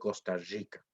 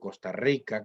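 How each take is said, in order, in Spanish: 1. La R en Rica es una fricativa arrastrada. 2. La R en Rica no es fricativa. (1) "la famosa R arrastrada de la gente que dice" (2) "como yo digo"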